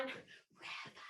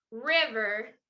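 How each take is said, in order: First: Drawn-out whispered shout; whisper yell. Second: Said in the usual way. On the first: Shown as a demonstration. Leading the Willy Wobble on the count, whisper yell. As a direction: stretch it into a voiceless yell. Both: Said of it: "So you're gonna whisper yell".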